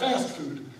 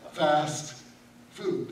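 First: The stress falls on the word fast. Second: The stress falls on the word food. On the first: It refers to quick restaurant meals. "Not fast food" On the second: It means going without food. "he's told me I'm to fast food"

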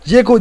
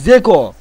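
First: The name begins with a plain z sound. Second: The name begins with a different first sound. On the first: The speaker calls it wrong. "Zeko değil" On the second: The speaker calls it right. "O Z'nin üzerindeki işaretin anlamını hiç kimse bilmiyordur"

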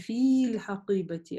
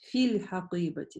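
First: The vowel in the first word is long. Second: The vowel in the first word is short. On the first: The speaker calls it wrong. "Мы не говорим" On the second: The speaker calls it right. "мы сокращаем долгие. Сокращаем долгие до гласовки, то есть до касры"

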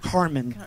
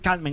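First: The R is not rolled, English style. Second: The R is rolled in a Spanish way. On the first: The speaker calls it wrong. "not Carmen" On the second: The speaker calls it right. "We have to say Carmen"

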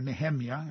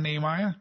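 First: The name has a Hebrew pronunciation. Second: The name has an English pronunciation.

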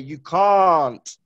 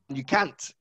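First: A southern English accent with a long 'ah' vowel. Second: A northern English accent with a short 'a' vowel. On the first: "I am from London, which is in the south. So when I pronounce the letter A, I pronounce it like this. Ah" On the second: "if you hear someone from the north of England, they pronounce it like this"

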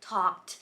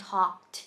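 No difference in how they are said.

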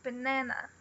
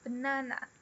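The two takes are said the same way.

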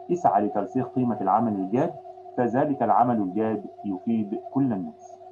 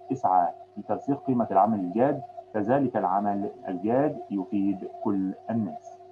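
No difference in how they are said.

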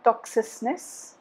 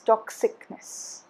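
First: The sound before '-ness' is a soft 's'. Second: The sound before '-ness' is a hard 'k'. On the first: The speaker calls it wrong. "It's not toxicness" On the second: The speaker calls it right. "it's toxicness"

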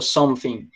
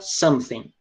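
First: The th sound is pronounced like an f. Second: It is said with an American accent. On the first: "principalmente Londres, eles falam something. Como se fosse um R, ou um F, desculpa" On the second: "geralmente americano fala something"

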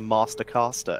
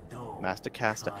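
First: It is said in a British accent. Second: It is said in an American accent. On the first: It sounds less impressive. The speaker calls it wrong. "if it's in British" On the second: It makes a good rhyme. The speaker calls it right. "especially if you say it with the American accent"

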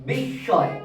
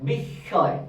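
The two takes are said the same way.

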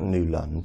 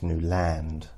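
First: The second syllable is reduced, like lund. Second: The second syllable is full, like land. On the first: The speaker calls it wrong. "It's not Newland" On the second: The speaker calls it right. "it's Newland. Land"

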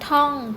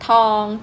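First: The syllable has a falling tone. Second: The syllable has a level mid tone. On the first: "รูปเอกแต่อยู่ที่เสียงโท" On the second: "สามัญ"

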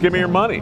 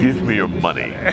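First: It is said in an ordinary conversational voice. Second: It is said in a put-on narrator voice.

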